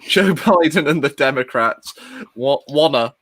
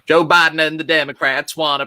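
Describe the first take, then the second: First: It is said in the speaker's normal voice. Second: It is said in an imitated, put-on voice. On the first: "I'm not going to do the voice" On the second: "Oh no, I am going to do the voice"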